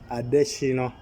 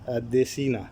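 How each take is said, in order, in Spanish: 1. La vocal final es una o nasal. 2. La vocal final es una a oral. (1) "Esa A se dobla en una O que sale por la nariz, es un sonido nasal" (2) "se escribe Adesina"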